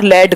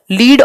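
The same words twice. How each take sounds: First: लेड with an e vowel, not ee; e-vowel pronunciation. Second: लीड with a long ee vowel; long ee pronunciation. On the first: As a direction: say लेड to rhyme with bed. (लेड में ए की ध्वनि) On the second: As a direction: say लीड to rhyme with need. (लीड में लंबी ई की ध्वनि) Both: Shown as a demonstration. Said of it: "ये बोले अलग जाते हैं".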